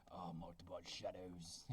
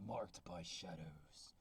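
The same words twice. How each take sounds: First: Very low, slow, quiet epic narrator voice; Game of Thrones voice. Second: Deep slow Game of Thrones style title read; low epic voice. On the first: Reading the title to viewers in a deep Game of Thrones voice. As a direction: intone the title like a dark fantasy trailer. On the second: Reading the book title to viewers in a deep epic trailer voice. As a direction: announce it like an epic fantasy trailer. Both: Acted. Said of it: "Game of Thrones voice".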